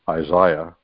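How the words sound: The name is said in a British way.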